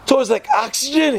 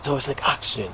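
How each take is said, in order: First: High, incredulous repeat of oxygen; mock disbelief. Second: Said in the usual way. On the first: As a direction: echo the answer as if it's absurd. Rebbe repeats answer in disbelief.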